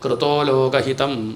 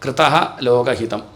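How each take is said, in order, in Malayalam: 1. ആദ്യ വാക്ക് 'o' ശബ്ദത്തിൽ അവസാനിക്കുന്നു. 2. ആദ്യ വാക്ക് ശ്വാസം കലർന്ന 'ah' ശബ്ദത്തിൽ അവസാനിക്കുന്നു. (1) "ഒരുമിച്ചാകുമ്പോൾ എന്തായി?" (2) "ഇനി അത് കൃതഃ എന്നാണ്"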